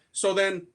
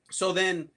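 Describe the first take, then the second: No difference in how they are said.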